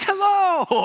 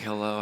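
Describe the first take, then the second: First: High, loud, gleeful park-greeter hello; over-the-top happy. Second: Said in the usual way. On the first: Retold or imitated. Disney attendant greeting arriving guests, over-the-top happy. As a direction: sing out an absurdly cheery greeting. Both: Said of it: "he's way over the top happy".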